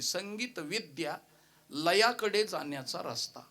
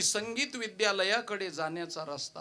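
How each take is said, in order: First: A break falls after vidya, splitting the word. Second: The word vidyalayakade is said without a break. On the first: A silly, different meaning about music knowledge and rhythm. The speaker calls it wrong. "नातवानी नको तिथं comma दिला" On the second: The road to the music school. The speaker calls it right. "असं सरळ होतं"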